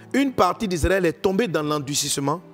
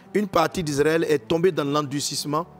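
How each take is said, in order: Both takes have the same delivery.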